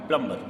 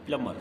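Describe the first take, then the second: First: प्लम्बर as plum-bar; B sounded. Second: प्लम्बर as plum-mar; no B in the middle of प्लम्बर; silent B. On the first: Teacher contrasts the wrong reading, प्लम्बर with B sounded. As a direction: voice a clear B after M in प्लम्बर. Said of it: "not प्लम्बर". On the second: Teacher repeats the correct reading, प्लम्बर with silent B. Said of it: "प्लम्बर, not प्लम्बर". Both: Shown as a demonstration.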